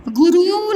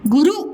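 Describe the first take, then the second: First: गुरु with both u's stretched out; wrong long vowels. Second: गुरु with two quick short u's; short vowels. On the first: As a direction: drag गुरु into goo-rooo. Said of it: "नहीं बोलते". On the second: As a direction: keep both vowels of गुरु brief. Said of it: "इसमें कम समय लगा". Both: Shown as a demonstration.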